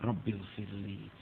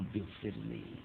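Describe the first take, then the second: First: It is said slowly and earnestly, with feeling. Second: It is said slowly and earnestly, with feeling.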